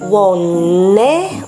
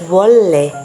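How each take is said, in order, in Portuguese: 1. A consoante do meio é um som nasal de N. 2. A consoante do meio é um som líquido de L.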